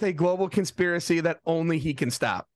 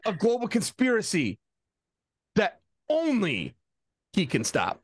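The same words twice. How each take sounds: First: It is read straight through without a long pause. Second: A long dramatic pause comes after 'conspiracy'.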